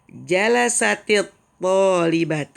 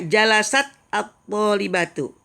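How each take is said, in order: First: The t takes an i vowel linking into the next word. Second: The t ends without a vowel before the next word. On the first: The two words are joined in speech. "kita kasih kasroh... Itu namanya disambung" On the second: This is the original, unlinked form. "Asalnya jalasat ini sukun"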